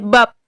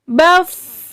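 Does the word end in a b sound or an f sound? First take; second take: b sound; f sound. First: It ends with a closed b sound. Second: It ends with an airy f sound. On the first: The speaker calls it wrong. "nggak boleh bab" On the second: The speaker calls it right. "terasa bunyi anginnya"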